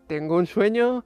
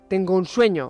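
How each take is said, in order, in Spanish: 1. Se dice con un tono perezoso, somnoliento y alargado. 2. Se dice con un tono solemne, inspirador y declamatorio. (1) "o un andaluz cualquiera" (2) "que parece que lo diga Martin Luther King"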